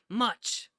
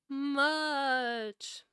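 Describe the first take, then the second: First: It is said in the reader's regular voice. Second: It is said in a put-on ghostly voice.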